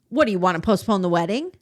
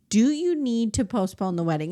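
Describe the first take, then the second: First: It is said in a harsh, uncaring tone. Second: It is said in a loving, caring tone.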